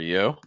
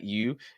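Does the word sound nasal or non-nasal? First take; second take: non-nasal; nasal. First: The word sounds non-nasal, placed low. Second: The word sounds nasal, placed high. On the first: The speaker calls it right. "it's more you" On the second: The speaker calls it wrong. "It's not you"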